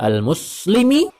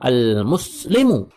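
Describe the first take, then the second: First: The word ends with a short 'i' vowel. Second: The word ends with a short 'u' vowel. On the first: The adjective follows the noun's written genitive form. "boleh dibaca majrur mengikuti lafaz al-mar'i" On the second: The adjective follows the noun's role as subject. "boleh dibaca marfu' mengikuti jabatan al-mar'i"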